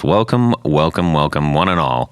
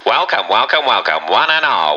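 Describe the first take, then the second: First: It is said in his normal voice. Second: It is said in an old-timey radio voice.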